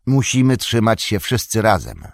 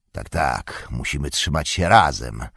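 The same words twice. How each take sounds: First: Said in the usual way. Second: Hoarse Ugluk. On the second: A narrator's reading. Ugluk answering the vile orc with a lower hoarse croak. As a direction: croak it back with scorn. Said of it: "zachrypiał Ugluk".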